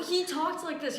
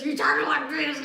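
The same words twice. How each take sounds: First: Said in the usual way. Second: Put-on loud, mushy slurred old-man voice. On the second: Shown as a demonstration. Imitating the old hoarder's talk, loud slurred speech. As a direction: slur it loudly till the words blur. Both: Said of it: "He slurred his words a lot".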